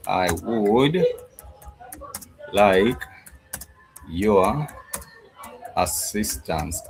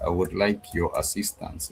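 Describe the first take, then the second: First: Slow, word by word; teacher drawing out the phrase; slow demo. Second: Said in the usual way. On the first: Shown as a demonstration. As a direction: space out each word for the class. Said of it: "which is".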